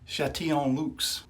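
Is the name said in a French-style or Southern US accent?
French-style. It is said with a French-style pronunciation. "I think that's correct"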